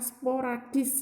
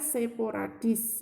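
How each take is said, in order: First: The s and p are said together. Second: A vowel is inserted between s and p. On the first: The speaker calls it right. "ada kata sporadis" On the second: The speaker calls it wrong. "itu tidak bakunya seporadis"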